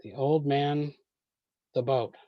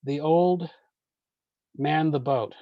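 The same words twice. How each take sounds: First: Put-on "The old man," break, "the boat."; line break after man. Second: Put-on "The old," break, "man" as a verb; line break after old. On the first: Teacher reads the confusing version before moving the break. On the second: Teacher shows the moved line break that makes sense. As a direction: pause after "old", then "man, the boat" as one phrase. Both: Shown as a demonstration. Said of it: "what if we move that line break?".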